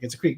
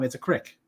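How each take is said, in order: First: The vowel is a long 'ee'. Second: The vowel is a short 'i', Pennsylvania style.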